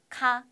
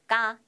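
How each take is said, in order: First: The first consonant is breathy and aspirated. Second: The first consonant is tense and strong. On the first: The syllable comes at the start of a word. "단어 맨 앞에 올 때는 카" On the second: The syllable comes in the middle or end of a word. "더 강하게 발음이 나서 쌍기역으로 발음이 나요"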